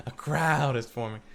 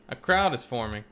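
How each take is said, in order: First: Laughing through the line. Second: Said in the usual way. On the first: Shown as a demonstration. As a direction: chuckle while saying it.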